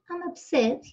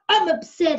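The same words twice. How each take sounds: First: It sounds mildly upset and calm. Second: It sounds intensely upset and alarmed. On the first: The feeling is small and will pass. "he said, oh, Karen, it will be fine" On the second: The feeling is strong and needs calming now. "send some chemicals to calm it down at the moment"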